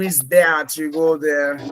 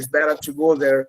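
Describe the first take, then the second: First: It is said in a Thames-side English accent. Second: It is said in a London English accent. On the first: "Thames নদীর তীরে যাবেন ... ওরা বলবে" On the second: "ইংল্যান্ডে লন্ডনে বলে ... এইভাবে বলে"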